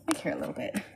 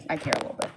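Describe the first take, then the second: First: Whispered under the breath, no voice. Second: Said in the usual way. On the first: Shown as a demonstration. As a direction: breathe the line as a private aside.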